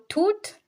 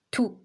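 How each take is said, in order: First: "tout" said as toot, rising; teacher contrasting "tout" with its t pronounced; sounded final t. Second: "Tout" said short as too; brief "Tout" ending on the oo vowel; silent final t. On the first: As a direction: finish "tout" on an audible t. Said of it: "If we have the E à la fin". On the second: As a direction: leave the t off the end of "Tout". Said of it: "back to this explanation". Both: Shown as a demonstration.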